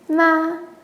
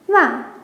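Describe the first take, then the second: First: The syllable carries the first tone. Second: The syllable carries the fourth tone. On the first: "the first" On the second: "and fourth"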